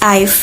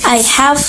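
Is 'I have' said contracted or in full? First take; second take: contracted; full. First: It is reduced to one syllable ending in f. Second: Both words are said fully and separately.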